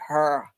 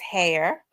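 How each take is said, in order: First: The word is said with a vowel like 'her'. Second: The word is said with a vowel like 'hair'. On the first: The speaker is from North Memphis. "that's how they say it in North Memphis" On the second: The speaker is from South Memphis.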